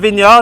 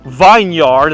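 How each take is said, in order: First: It is said in a British accent. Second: It is said in an American accent.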